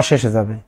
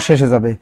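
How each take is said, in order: Both takes have the same delivery.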